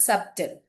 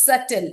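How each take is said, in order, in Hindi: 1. t से पहले b बोला जाता है। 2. t से पहले b silent होता है। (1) "it's not subtle" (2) "it's subtle"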